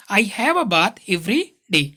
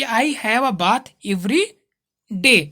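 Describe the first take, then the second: First: "every", a short beat, then "day"; just a small break between every and day; small pause before day. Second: A long stop after "every" before "day"; long pause before day. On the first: Teacher shows the right way, a brief pause before day. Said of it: "थोड़ा सा रुक के बोलना है". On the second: Teacher shows the wrong way, a long stop between every and day. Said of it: "ऐसे नहीं बोलना है". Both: Shown as a demonstration.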